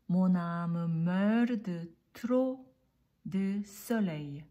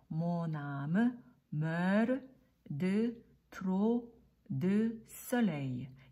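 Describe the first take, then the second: First: The sentence is read at a fast pace. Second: The sentence is read at a slower pace.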